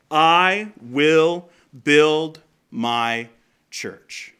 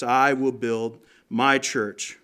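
First: "I" drawn out and leaned on, every word slowed right down; slow stress on I. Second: "my" leaned on in a slowed, deliberate line; stress on MY. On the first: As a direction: give "I" the weight, very slow and deliberate. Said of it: "These words". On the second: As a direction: press the word "my", slowly. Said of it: "he says". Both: Shown as a demonstration.

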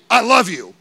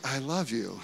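First: "I love you" said loud and forceful, pitch slightly up; a bold, loud "I love you". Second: "I love you" said much softer and lower; a hushed, low "I love you". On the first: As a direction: belt out "I love you" like a declaration. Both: Shown as a demonstration. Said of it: "There's a complete different way that I'm saying that".

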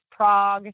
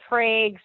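First: "Prague" with an open "ah", like "Prahg"; alternate city pronunciation. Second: "Prague" with a long A, like "Prayg"; alternate town pronunciation. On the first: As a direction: say "Prague" to rhyme with fog. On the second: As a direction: say "Prague" to rhyme with vague. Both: Shown as a demonstration. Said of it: "Prague slash Prague".

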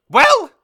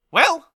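First: Very high, shouted prompt; demanding mother, escalated. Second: High, loud, short prompt; demanding mother. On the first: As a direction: burst out demanding an answer. Mother repeats demand after silence. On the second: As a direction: press your child for an answer. Mother demands an answer from son. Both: Acted.

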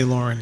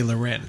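First: Lauren as LOR-un, stress first; Lauren, first syllable stressed, weak ending; common pronunciation. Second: Loren as luh-REN, stress last; Loren, second syllable stressed with "ren"; guest's own pronunciation. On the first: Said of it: "some people say Lauren". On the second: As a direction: say Loren with a weak first syllable. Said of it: "you say Loren". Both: Shown as a demonstration.

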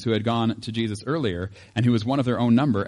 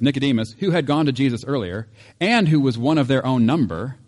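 First: Said in the usual way. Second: Leaning hard on each phrase, louder; emphatic second reading of the verse; pointed reread. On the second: Shown as a demonstration. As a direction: reread it as the punchline. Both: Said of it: "it says".

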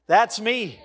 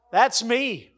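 The two takes are said the same way.

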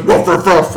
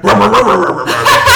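First: Barking like a dog; imitating a dog barking; mock dog bark. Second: Loud laughing barks, rising high; louder, higher barking through laughter; real dog barking. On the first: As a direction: woof it out like a playful dog. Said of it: "and he goes". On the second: Retold or imitated. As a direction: bark wildly like an excited stray, laughing. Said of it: "and then I heard".

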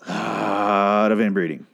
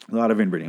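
First: "a lot" stretched long and slow; drawn-out emphasis. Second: Said in the usual way. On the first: Real, not acted. Host on two people becoming billions, stretched-out "lot". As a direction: draw out the start of "a lot of inbreeding". First take, drawn out for effect.

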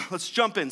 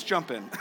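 First: Said in the usual way. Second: Laughing. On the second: Real, not acted. Laughs mid-cue.

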